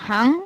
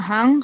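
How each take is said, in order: The two takes are said the same way.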